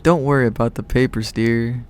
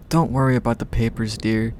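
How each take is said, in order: First: Lightly voiced southern accent, soothing; a touch of southern comfort. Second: Said in the usual way. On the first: A narrator's reading. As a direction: reassure in a mild southern accent. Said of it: "she said with her soothing southern accent". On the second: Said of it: "Oh, it's southern".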